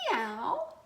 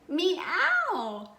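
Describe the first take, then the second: First: It is said softly and politely. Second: It is said a little louder.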